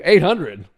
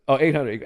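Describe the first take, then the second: First: "Eight hundred?" said higher and louder in mock disbelief; mock surprise. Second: Said in the usual way. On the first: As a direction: fake shock at the raise. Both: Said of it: "He goes".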